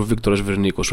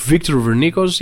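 First: Said in the usual way. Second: English pronunciation. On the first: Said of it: "με ελληνικούς χαρακτήρες". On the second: Shown as a demonstration. Comedian setting the singer apart from his Greek namesake, English pronunciation. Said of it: "Το γράφει με αγγλικούς χαρακτήρες".

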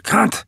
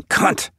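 First: High New England cry, CUNT with an open "ah"; weird New England accent. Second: Short mock shout, contained; a narrator's restrained cry of CUNT. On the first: Sick stepfather shouting from bed, high New England accent. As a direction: shout it New England style, vowel like "can't" in "cahn't". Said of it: "with some weird New England accent". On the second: Sick stepfather shouting from his bed, mildly voiced shout. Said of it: "in a bed shouting". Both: A narrator's reading.

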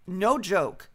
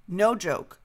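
The two takes are said the same way.

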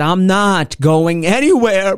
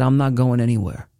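First: Louder, slow, firm insistence; emphatic refusal. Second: Said in the usual way. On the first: Retold or imitated. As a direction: dig in and insist. Emphatic repeated refusal to parents.

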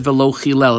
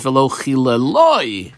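First: Said in the usual way. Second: Chileloi with its final syllable loi pressed; stress on the final vav. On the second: Shown as a demonstration. Teacher pointing out the added vav to students, stressing loi. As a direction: push the ending loi of chileloi. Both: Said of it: "emphasis on the vav at the end of the word".

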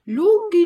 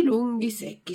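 First: "lunghi" stretched, much higher and louder; emphatic. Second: Said in the usual way. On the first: A narrator's reading. Narrator stresses "lunghi" to show how tall the guards are. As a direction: throw "lunghi" up high and loud.

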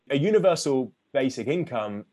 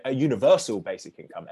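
First: Said in the usual way. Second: "universal" given extra emphasis; stress on universal. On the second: Real, not acted. Author stressing which kind of basic income worries him, emphasis on "universal". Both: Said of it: "emphasis on universal".

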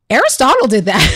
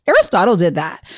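First: Quick tattle, a touch loud; matter-of-fact tattling. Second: Imitated child's tattle, stated as simple fact; matter-of-fact. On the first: Retold or imitated. Son running in to blame his brother, matter-of-fact tattling. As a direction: imitate a child promptly blaming a brother. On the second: Mother imitating son who blames his brother right away, matter-of-fact. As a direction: report the culprit matter-of-factly, without fuss. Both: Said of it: "matter of fact".

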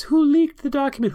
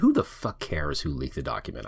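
First: Very high, louder mock squeal; mocking John Roberts. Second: Said in the usual way. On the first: Host mimicking a justice fretting over the leak, high-pitched mockery. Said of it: "all John Roberts can talk about is".

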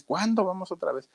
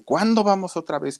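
First: High whiny plea, dropped much softer; nagging child, softer. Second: Put-on high whiny child's plea; nagging child. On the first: Retold or imitated. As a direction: pester mom again, softer and high. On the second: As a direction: pester mom like a small boy. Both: Boy nagging his mother.

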